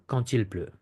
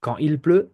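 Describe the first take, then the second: First: Quand il pleut linked with T, quan-til; French liaison with T. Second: Quand il pleut, no T, quan-il; French without liaison. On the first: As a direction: carry a T from quand into il. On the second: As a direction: keep quand apart from il. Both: Shown as a demonstration. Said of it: "it's up to you".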